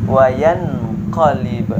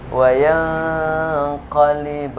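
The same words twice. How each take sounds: First: Wayan qalib with a crisp n, no hum; wrong reading. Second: Wayan qalib with the n hummed long, slow; correct nasal hold. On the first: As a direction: say wayan qalib clipped, unhummed. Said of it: "Bagaimana cara yang salah?". (wayan qalib dibaca jelas tanpa dengung) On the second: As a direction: hum two beats before qalib. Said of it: "Yang benar gimana tadi?". (wayan qalib dengan dengung dua harokat) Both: Shown as a demonstration.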